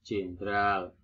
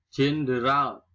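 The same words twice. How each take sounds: First: "jenderal" squeezed to jen-dral; nonstandard pronunciation. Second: "Jenderal" in three syllables with a d; standard pronunciation. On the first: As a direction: say "jenderal" without the middle vowel. (ucapkan "jenderal" menjadi jendral) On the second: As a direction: say jen-de-ral for "Jenderal", loudly. (ucapkan "Jenderal" dengan d jelas) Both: Shown as a demonstration.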